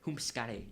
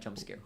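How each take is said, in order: First: The j is said like an h, accented. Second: The j is said as a normal j. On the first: "I'm saying it with a weird accent" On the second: "not jump scare"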